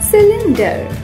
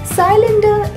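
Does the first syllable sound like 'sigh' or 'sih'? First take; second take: sih; sigh. First: The first syllable sounds like 'sih'. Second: The first syllable sounds like 'sigh'. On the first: The speaker calls it right. "पहले बोलिए सी, फिर बोलें लिन, फिर बोलें डर" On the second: The speaker calls it wrong. "इसका गलत उच्चारण है"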